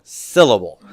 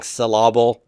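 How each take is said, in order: First: Said in the usual way. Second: "syllable" with the stress moved to the middle, sil-LAB-le; stress on the wrong syllable. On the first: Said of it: "As opposed to the wrong". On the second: Shown as a demonstration. Teacher joking about mis-stressed words, "syllable" stressed on the middle. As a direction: misplace the stress in "syllable" onto its second syllable. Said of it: "somebody stresses the wrong syllable".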